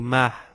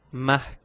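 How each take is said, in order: First: "mar" with no k at the end; C final omis. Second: "Marc" closed on a crisp k; C final prononcé. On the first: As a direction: drop the final consonant, leave "mar" open. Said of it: "não digo mar". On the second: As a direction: finish "Marc" with an audible k. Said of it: "mas sim". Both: Shown as a demonstration.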